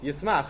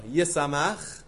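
First: The word is said with two syllables. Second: The word is said with three syllables. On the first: The speaker calls it wrong. "Yismach, right? No" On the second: The speaker calls it right.

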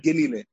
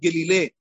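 First: The stress is on the second syllable. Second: The stress is on the last syllable. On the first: The speaker calls it right. "the Tom is on the Yud, on the Lamed, so it becomes Milayel" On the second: The speaker calls it wrong. "If you said gelile instead of"

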